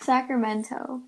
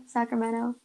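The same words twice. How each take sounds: First: "Sacramento" with a clear T after the N; T pronounced. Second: "Sacramento" with the T dropped, like "Sacrameno". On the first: Host tests how to say the city, "Sacramento" with crisp T. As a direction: say "Sacramento" slowly, sounding the T in -to. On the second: Host compares city pronunciations, "Sacramento" with silent T. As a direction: run the N straight into the O in "Sacramento". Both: Shown as a demonstration. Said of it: "you say Sacramento or is it".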